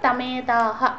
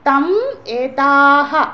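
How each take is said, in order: First: The words are run together as one word. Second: The words are said as separate words.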